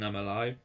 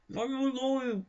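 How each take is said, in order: First: Muffled kiss. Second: Much higher, squashed into the hand; high muffled squeal. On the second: Showing a kissed line comes out garbled, high mock squeal. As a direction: squeak it out while kissing a hand. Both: Shown as a demonstration. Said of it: "If I try kissing my hand while saying".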